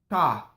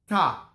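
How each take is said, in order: No difference in how they are said.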